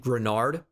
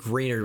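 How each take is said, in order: First: The first syllable sounds like 'grun'. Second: The first syllable sounds like 'green'. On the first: The speaker calls it right. "but it's Jonathan Grunard" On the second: The speaker calls it wrong. "I always want to say Greenard when I see his name"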